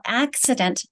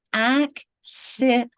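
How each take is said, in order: First: Said in the usual way. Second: "Accident" very slowly, broken into ac, si, dent; slow spelling-lesson "Accident", a gap between syllables. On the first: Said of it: "I'm gonna go syllable by syllable". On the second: Shown as a demonstration. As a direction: say "Accident" one syllable at a time, drawn out. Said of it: "I'm gonna go syllable by syllable here".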